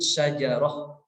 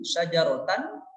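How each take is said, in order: First: The word ends with a soft h sound. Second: The word ends with a t and n sound. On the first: The reading stops on this word. "ketika waqaf" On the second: The reading continues into the next word. "di sana ada tanwin fathah"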